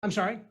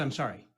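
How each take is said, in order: First: Questioning rise. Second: Apologetic fall. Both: Shown as a demonstration. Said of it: "I said, "I'm sorry".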